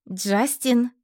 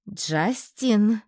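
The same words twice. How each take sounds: First: Justin! called with a short falling call. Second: Justin! stretched long and reproachful; drawn-out name. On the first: Calling her pet Justin out from under the bed. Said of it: "позвала я". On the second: To the guilty pet, drawing out Justin! reproachfully. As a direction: drag the name out, scolding. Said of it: "протянула я". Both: A narrator's reading.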